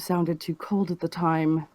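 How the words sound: It is delivered in a cold, distant way.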